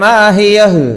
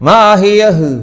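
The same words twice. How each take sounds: The two takes are said the same way.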